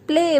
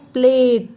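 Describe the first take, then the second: First: The word ends in a vowel with no t. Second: The word ends with a clear t sound. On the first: The speaker calls it right. "We pronounce it play" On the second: The speaker calls it wrong. "We will not pronounce it plate"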